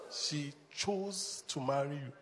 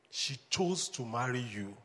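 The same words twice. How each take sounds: First: Slow, softer, leaning on chose; stress on chose. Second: Said in the usual way. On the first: Shown as a demonstration. Pastor driving the point home to husbands, stress on chose. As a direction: drag out chose, let it land. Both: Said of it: "Everybody say, "Chose".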